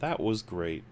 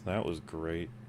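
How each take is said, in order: First: It is said sincerely, meaning it. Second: It is said sarcastically, not meaning it.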